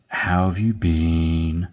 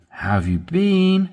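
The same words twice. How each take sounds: First: Said in the usual way. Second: "How have you been?" with rising upbeat tune; engaged, rising question; rising inflection. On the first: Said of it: "when you raise your". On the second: Shown as a demonstration. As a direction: lift the pitch to sound interested. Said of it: "When the inflection goes up".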